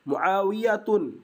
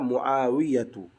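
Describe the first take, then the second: First: The name ends with an added final n sound. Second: The name ends in a vowel without final n. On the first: The speaker calls it wrong. "itu keliru" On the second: The speaker calls it right. "Yang benar adalah"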